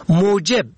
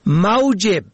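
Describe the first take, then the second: First: موجب said "mojeb", rounded o first; damma on first letter. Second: موجب said "maujeb", au glide first; fatha on first letter. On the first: Teaching the word for cause, o vowel. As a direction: say موجب as "mo-jeb". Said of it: "به ضم اول". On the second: Teaching the word for livelihood, au glide. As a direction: say موجب as "mau-jeb". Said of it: "به فتح اول". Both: Shown as a demonstration.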